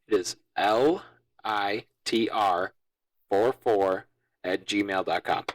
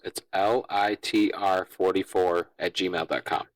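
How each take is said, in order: First: It is said at a slower pace. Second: It is said at a quicker pace.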